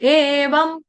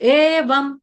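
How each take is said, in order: Both takes have the same delivery.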